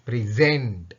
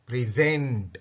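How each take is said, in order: Both takes have the same delivery.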